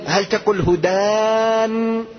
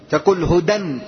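First: هدان drawn out slowly as a long wrong form; wrong form hudaan. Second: هدى said as hudan with the nun sounded; هدى pronounced hudan, tanween audible. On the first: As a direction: stretch هدان slowly to show the mistake. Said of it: "لا، تقول هدى". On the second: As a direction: say هدى ending in -dan. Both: Shown as a demonstration.

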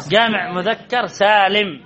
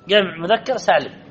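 First: Slow, deliberate جمع مذكر سالم for the class; teacher drawing out جمع مذكر سالم; slow emphatic repeat. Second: Said in the usual way. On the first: Shown as a demonstration. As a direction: spell it out slowly, word by word: جمع مذكر سالم. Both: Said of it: "إذن هو جمع مذكر سالم".

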